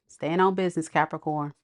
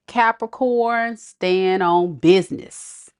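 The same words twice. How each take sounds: First: Said in the usual way. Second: Capricorn slow, stand hit loud; slow emphatic. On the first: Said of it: "I heard that". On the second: Retold or imitated. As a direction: drag out stand on business, punch stand. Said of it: "[name] gives you guys some, inspirational words".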